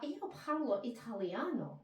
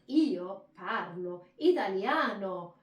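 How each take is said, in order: First: It is said flatly, with an English accent. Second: It is said with Italian emphasis, rising and falling.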